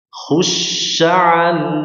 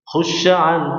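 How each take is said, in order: First: The 'sh' sound is drawn out fully. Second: The 'sh' sound is cut short hurriedly. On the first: The speaker calls it right. "ketika tasydid ya ... dialihkan dulu dengan sempurna" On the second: The speaker calls it wrong. "Jangan ... jangan terburu-buru"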